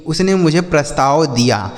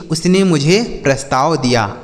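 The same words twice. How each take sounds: The two takes are said the same way.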